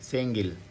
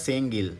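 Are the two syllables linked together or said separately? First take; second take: linked; linked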